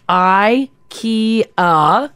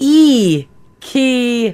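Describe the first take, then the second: First: Ikea as eye-KEE-uh, drawn out syllable by syllable; the familiar eye-KEE-uh for ikea, broken into syllables; English pronunciation. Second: Ikea as ee-KEE-uh, drawn out syllable by syllable; corrected pronunciation. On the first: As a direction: say ikea very slowly, starting with "eye". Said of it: "the correct way to pronounce ikea". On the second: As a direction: say ikea very slowly, starting with a long "ee". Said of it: "It is". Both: Shown as a demonstration.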